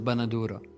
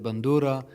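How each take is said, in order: First: The word has an extra middle vowel. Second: The word has no extra middle vowel. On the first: This is the pronunciation claimed to be Syrian. "the Syrian pronunciation, as they claim" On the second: This is how the man pronounced it. "he said bandura"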